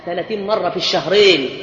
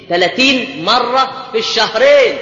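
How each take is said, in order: First: Said in the usual way. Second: Slow emphatic repetition of ثلاثين مرة في الشهرين; emphatic repeat. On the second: Shown as a demonstration. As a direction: hammer ثلاثين مرة في الشهرين home slowly. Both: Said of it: "repeated for emphasis".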